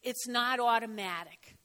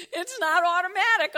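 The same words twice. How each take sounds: First: Said in the usual way. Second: "automatic" pushed higher and louder; emphatic repeat. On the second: Real, not acted. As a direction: drive home "automatic" with a raised, firm voice. Repeats it emphatically after laugh.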